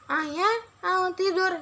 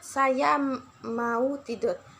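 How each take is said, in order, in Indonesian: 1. Suaranya terdengar teredam, dengan satu bunyi yang hilang. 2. Kata-katanya diucapkan dengan jelas dan resonansinya normal.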